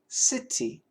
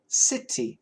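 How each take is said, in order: First: The middle t is a clear, crisp t. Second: The same.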